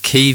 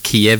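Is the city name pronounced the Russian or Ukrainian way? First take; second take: Ukrainian; Russian. First: The name is pronounced the Ukrainian way. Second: The name is pronounced the Russian way. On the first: The speaker calls it right. "Kyiv is the way that Ukrainians pronounce it" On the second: The speaker calls it wrong. "Kiev is the way Russians pronounce it"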